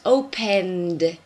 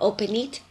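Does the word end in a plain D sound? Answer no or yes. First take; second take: yes; no. First: The ending is said as a D sound. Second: The ending is not said as a D sound. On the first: The speaker calls it right. "Can you hear the D?" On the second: The speaker calls it wrong. "or open it"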